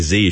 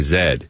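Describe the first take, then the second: First: The letter is said the American way. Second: The letter is said the Canadian way. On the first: "she wouldn't say Z" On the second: "she's from Canada, so ... she'd say Z"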